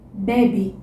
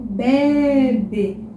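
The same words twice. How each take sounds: First: The word is said in a casual, relaxed way. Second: The word is said with very careful articulation.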